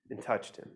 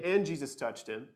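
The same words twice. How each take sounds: First: Hushed. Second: Said in the usual way. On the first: Shown as a demonstration. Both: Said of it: "it doesn't just say".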